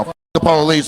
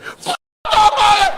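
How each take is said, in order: First: Said in the usual way. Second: Much higher, slow, laughing mock shout of "F- the police."; overdone shout "F- the police." mocking a fan; mock yell. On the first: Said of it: "is what I was looking for". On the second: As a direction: ham up an over-the-top yell of "F- the police.". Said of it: "Some people were shaking in there and said".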